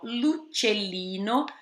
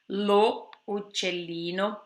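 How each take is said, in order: First: The article's vowel is dropped and joined on. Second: The article's vowel is pronounced separately. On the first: The speaker calls it right. "atenção à apóstrofe" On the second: The speaker calls it wrong. "não se usa lo uccellino por causa das duas vogais"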